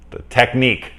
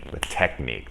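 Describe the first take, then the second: First: Grab "the technique" with a burst of recall; searching then found. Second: Said in the usual way. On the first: Real, not acted.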